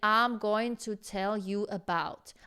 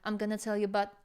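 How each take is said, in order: First: Every word is pronounced separately and fully. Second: The words run together with consonants dropped. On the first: The speaker calls it wrong. "You're you're not saying I'm going to tell you about" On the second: The speaker calls it right. "combine all the words in just one phrase and cut some of the consonants"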